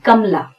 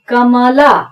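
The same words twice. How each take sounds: First: The middle vowel is dropped, sounding like kam-la. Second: The middle syllable keeps its full vowel: ka-ma-la. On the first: "यहां पर म जो है उसका पूरा उच्चारण नहीं होता है" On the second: "हम कमला ऐसा बोलने की बजाय"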